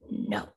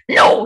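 First: It is said weakly and timidly. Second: It is said strongly, with vibration.

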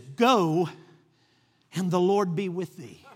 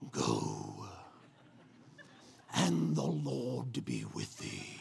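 First: It is said in an ordinary voice. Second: It is said in a deep Darth Vader voice.

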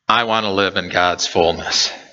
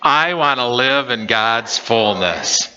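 First: It is said in a plain, calm way. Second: It is said with strong, eager energy.

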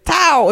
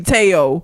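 First: The name is pronounced in an Asian style. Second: The name is pronounced in an African American style.

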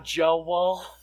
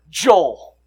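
First: The name is drawn into two syllables, Southern-style. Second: The name is said as one syllable.

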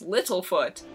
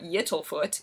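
First: The name begins with an L sound. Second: The name begins with a Y sound. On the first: The speaker calls it right. "it's Littlefoot" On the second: The speaker calls it wrong. "a Y for no reason"

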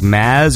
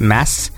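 First: The name ends with a buzzing Z sound. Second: The name ends with a hissing S sound. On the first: "does the S take on like a Z sound?" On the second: "or is it Mass?"

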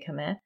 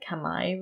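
First: Khmer is pronounced the usual Western way. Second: Khmer is pronounced the way Cambodians say it. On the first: This is how outsiders usually say it. "in the West we say Khmer" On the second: This is how people in the country say it. "actually they pronounce it Khmer Rouge"

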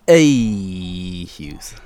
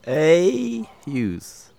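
First: It is said in a gruffer voice. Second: It is said in a plainer voice.

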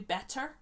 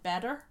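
First: The t in the middle is clearly pronounced. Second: The t in the middle is soft or dropped.

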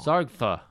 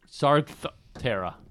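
First: No extra vowel sound is added in the middle. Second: An extra vowel sound is added in the middle. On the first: The speaker calls it right. "There we go" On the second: The speaker calls it wrong. "why can't I say that?"

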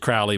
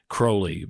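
First: The first syllable does not rhyme with 'holy'. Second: The first syllable rhymes with 'holy'. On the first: The speaker calls it wrong. "I may refer to him as [name] because of [name]" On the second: The speaker calls it right. "Crowley rhymes with unholy. And it's Aleister Crowley"

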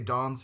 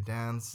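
First: It is said in the speaker's own non-American accent. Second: It is said with an American accent.

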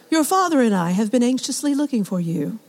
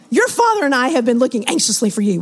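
First: It is said like a calm, formal reading. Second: It is said like a scolding, worried mother.

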